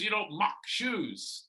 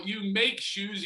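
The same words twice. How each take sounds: First: High, drawn-out "mock"; stress on MOCK. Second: High, drawn-out "make"; stress on MAKE. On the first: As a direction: lean slowly on "mock" as the wrong sound. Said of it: "not Schumacher". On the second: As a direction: lean slowly on "make" to teach the name. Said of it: "Shoemaker, like you make shoes". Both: Shown as a demonstration.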